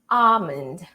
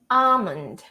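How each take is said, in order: First: The L sound is left out entirely. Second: The L sound is left out entirely.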